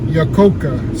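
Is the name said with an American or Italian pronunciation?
Italian. The name is said with an Italian pronunciation. "The Italian pronunciation would be Iacocca"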